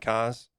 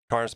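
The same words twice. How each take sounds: First: The R sound at the end is dropped. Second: The R sound at the end is pronounced.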